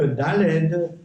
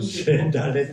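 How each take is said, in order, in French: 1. Le mot se termine par un son d. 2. Le mot se termine par un son t. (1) "je ferme le Daled avec un autre Daled" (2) "c'est Dalet avec un taf à la fin"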